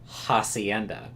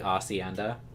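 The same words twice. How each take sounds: First: The h at the start is pronounced. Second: The h at the start is silent. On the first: The speaker calls it wrong. "you would not believe how long I went saying" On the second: The speaker calls it right. "I think it's supposed to be"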